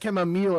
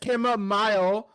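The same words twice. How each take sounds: First: The word has an American pronunciation. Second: The word has a British pronunciation. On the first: "if you're an American" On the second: "if you're a British"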